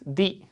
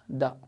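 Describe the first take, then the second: First: The word ends in a long ee vowel. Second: The word ends in a short uh vowel. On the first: The next word starts with a vowel letter. "If this word starts with any vowel letter, then it is pronounced like this" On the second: The next word starts with a consonant letter. "If this word starts with consonant letter, it is pronounced like this"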